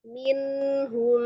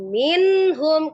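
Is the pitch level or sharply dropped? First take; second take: level; sharply dropped. First: The pitch stays level and even. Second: The pitch drops sharply and heavily. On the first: The speaker calls it right. "Minhum, minhum gitu ya" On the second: The speaker calls it wrong. "bukan minhum. ... diturunkan, dibanting"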